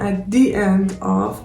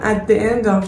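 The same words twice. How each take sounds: First: The word 'the' has a long 'thee' vowel. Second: The word 'the' has a short 'thuh' vowel. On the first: The speaker calls it right. "به خاطر همین د تبدیل میشه به دی" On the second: The speaker calls it wrong. "چرا من نمیگم at the end of"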